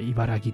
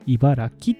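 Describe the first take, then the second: First: The last syllable has a voiced g sound. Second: The last syllable has an unvoiced k sound. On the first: "いやいや、俺はこれからも茨城と呼ぶぞ" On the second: "濁らないのが正解とされています"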